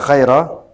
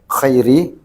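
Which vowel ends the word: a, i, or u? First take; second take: a; i. First: The word ends in an a vowel. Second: The word ends in an i vowel. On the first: The word is the object of an unstated verb of praising. "Bisa dinasabkan, dibaca khaira" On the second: The word describes the Prophet as the best. "bil jarri, dengan jar"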